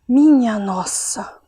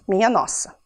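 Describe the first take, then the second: First: It is said with astonishment. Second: It is said flatly, as a statement.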